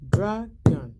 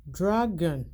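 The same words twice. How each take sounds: First: "Dragon" spoken louder, each syllable marked: DRA-GON; dragon said loud for counting syllables. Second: Said in the usual way. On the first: Shown as a demonstration. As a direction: beat out "Dragon" clearly for the kids. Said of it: "How many time?". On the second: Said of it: "I have".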